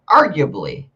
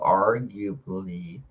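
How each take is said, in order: First: The word is said quickly. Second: The word is said slowly. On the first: The speaker calls it right. "you just gotta say words fast so they don't sound stupid" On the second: The speaker calls it wrong. "if you say them slow"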